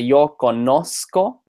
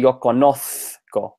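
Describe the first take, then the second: First: The z is pronounced as an s sound. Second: The z is pronounced as a th sound. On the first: This is how most Spanish-speaking countries say it. "every country they say yo conozco" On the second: This is how it is said in Spain. "with like a th sound"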